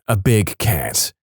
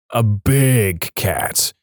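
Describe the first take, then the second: First: Said in the usual way. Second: BIG stretched very long and slow; drawn-out emphasis. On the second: A narrator's reading. Storyteller revealing a mountain lion, drawn-out stress on BIG. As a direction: dwell on BIG, each word drawn out.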